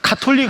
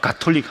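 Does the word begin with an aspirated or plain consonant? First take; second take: aspirated; plain. First: The first consonant is aspirated, like ka. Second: The first consonant is plain, like ga. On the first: "발음을 카톨릭 합니까?" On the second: "가톨릭 합니까?"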